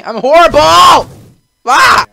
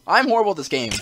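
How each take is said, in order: First: High, very loud, drawn-out yell; exasperated yell. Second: Said in the usual way. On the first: Real, not acted. Player admitting he is bad at the game, exasperated yell. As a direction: yell it out in despair at yourself. Player yells about own failure.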